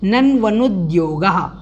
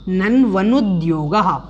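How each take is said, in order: No difference in how they are said.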